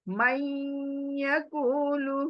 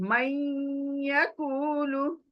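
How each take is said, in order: No difference in how they are said.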